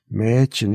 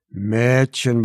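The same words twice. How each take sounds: First: Consoling. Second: A mild scolding „Mädchen,“ falling at the end. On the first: Anne consoling weeping Clara, gentle. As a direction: soothe her crying friend. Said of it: "tröstete sie ihre Freundin". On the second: Anne scolding Clara at the open window, mildly cross. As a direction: chide her friend, lightly. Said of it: "schimpfte Anne". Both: A narrator's reading.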